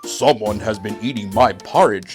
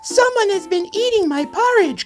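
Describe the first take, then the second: First: It is said in a great big voice. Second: It is said in a wee small voice.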